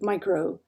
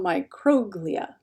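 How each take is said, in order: First: The stress is on a different syllable. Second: The stress is on the third-from-last syllable. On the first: The speaker calls it wrong. "instead of" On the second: The speaker calls it right. "emphasize the third from last syllable"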